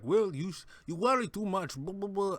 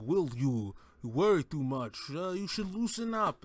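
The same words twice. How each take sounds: First: Higher, lightly put-on Danish accent as Hannibal; a loose attempt at Mikkelsen's Danish accent; Mads Mikkelsen accent. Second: Second try at Mikkelsen. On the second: Retold or imitated. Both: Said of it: "I can't do an impersonation of Mads Mikkelsen's accent".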